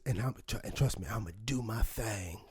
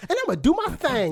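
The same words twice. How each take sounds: First: Low, breathless whisper of the line; softly husked tough-guy promise; hushed mock movie line. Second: Higher, punchy mock movie delivery; a put-on tough-guy swagger, pitched up; mock cool-guy line. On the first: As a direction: whisper it like a brooding action hero. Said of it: "he goes". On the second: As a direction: ham up the mobster-cool line. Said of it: "he didn't just go".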